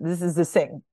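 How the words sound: It is said with a French accent. The speaker calls it wrong. "This is why a French person will say"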